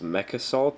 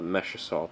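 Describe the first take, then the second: First: The first word ends in a k sound. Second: The first word ends in a sh sound. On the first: The speaker calls it right. "I think it's Mech Assault" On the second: The speaker calls it wrong. "I used to call it Mesh Assault"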